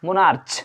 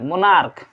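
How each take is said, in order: First: The word ends with a ch sound. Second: The word ends with a k sound. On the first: The speaker calls it wrong. "I am not pronouncing this monarch" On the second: The speaker calls it right. "सी एच का pronunciation अगर last में क होता है"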